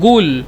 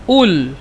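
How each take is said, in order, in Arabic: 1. الكلمة تبدأ بغين. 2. الكلمة تبدأ بهمزة. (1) "نستخدم قاف يعني غين" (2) "نستخدمون قاف يعني آه همزة"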